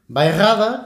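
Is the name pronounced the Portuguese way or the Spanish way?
Portuguese. It is pronounced with Portuguese sounds. "como pronuncian los portugueses"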